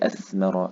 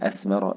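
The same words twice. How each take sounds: First: The middle consonant is a th sound. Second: The middle consonant is an s sound. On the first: It means bearing fruit. The speaker calls it right. "لازم أخرج طرف اللسان معناها إخراج الثمار" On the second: The meaning changes. The speaker calls it wrong. "لو ما خرجتش طرف لساني تحول الساء إلى سين"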